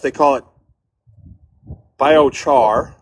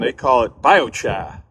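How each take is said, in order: First: It is said in a Midwestern accent. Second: It is said in a New England accent.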